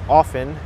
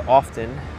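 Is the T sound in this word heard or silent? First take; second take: silent; heard. First: The T sound is silent. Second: The T sound is pronounced. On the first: The speaker calls it right. "you don't pronounce the T. The T is silent" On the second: The speaker calls it wrong. "It's incorrect to say often"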